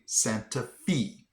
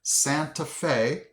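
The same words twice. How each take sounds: First: Santa Fe with "FEE" at the end; actual local pronunciation. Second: Santa Fe with "FAY" at the end; common mispronunciation. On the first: Correcting what everybody says, Santa FEE. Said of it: "It's actually". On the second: What everybody would call it, Santa FAY. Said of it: "everybody and their mother would have called this". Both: Shown as a demonstration.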